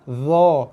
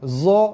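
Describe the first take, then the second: First: The consonant is a voiced th-like sound. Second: The consonant is a buzzing z sound. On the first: The speaker calls it right. "Yang tepat ialah dha" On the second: The speaker calls it wrong. "Yang salah za"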